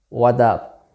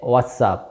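First: The word 'is' is dropped completely. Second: The word 'is' is contracted to 's'. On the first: "some native speakers pronounce this phrase as a what up" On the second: "you say what's up"

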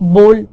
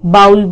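First: The vowel sounds like 'oh' in 'go'. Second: The vowel sounds like 'ow' in 'cow'. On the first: The speaker calls it right. "But इसको हम बोल बोलते हैं जैसे कि हम गोल बोलते हैं" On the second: The speaker calls it wrong. "इसको लोग बाउल बोलते हैं"

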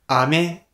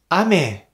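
First: It carries the pitch accent of the word candy. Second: It carries the pitch accent of the word rain. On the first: The word means candy. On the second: The word means rain.

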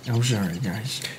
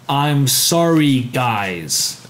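First: The apology sounds grudging and insincere. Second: The apology sounds heartfelt and sincere.

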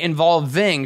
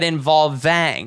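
First: The stressed vowel is said with a normal jaw. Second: The stressed vowel is opened with a dropped jaw. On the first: "she didn't say involving" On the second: "she's doing that in order to drop the jaw"

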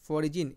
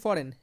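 First: The g is sounded, following the letters. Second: The g is silent, two syllables. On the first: This helps to remember the spelling. "आप याद रखने के लिए इसे फॉरिजिन याद रखें" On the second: This is how the word is normally spoken. "बोलते हैं इससे फॉरेन"

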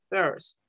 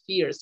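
First: The vowel is between 'o' and 'e'. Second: The vowel is a clear 'ee' sound. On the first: The speaker calls it right. "es first. Como entre una O y una E" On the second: The speaker calls it wrong. "No es fierce, La I no suena como tal"

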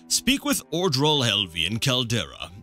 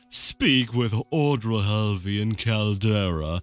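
First: It is spoken in a voice unlike Crassius. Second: It is spoken in Crassius Curio's character voice.

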